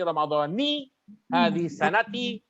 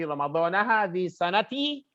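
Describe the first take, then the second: First: Ramadan ends with an 'i' vowel. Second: Ramadan ends with an 'a' vowel. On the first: The speaker calls it right. "maka Ramadan harus dikasrohkan" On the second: The speaker calls it wrong. "maka cara baca dan i'rabnya sekaligus salah"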